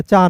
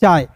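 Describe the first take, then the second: First: First "चाय" said as chaa, y dropped; wrong form without y. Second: "चाय" as chaai, closing on a y glide; full form with y. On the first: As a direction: leave "चाय" open on the long a. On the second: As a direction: finish "चाय" on a clear y sound. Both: Shown as a demonstration. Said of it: "चाय नहीं, चाय".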